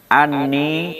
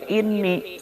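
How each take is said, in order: First: The word begins with an 'a' vowel. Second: The word begins with an 'i' vowel. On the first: A dropped preposition 'bi' is implied before it. "dibaca hamzahna patah" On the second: A dropped word 'he said' is implied before it. "bil kasri"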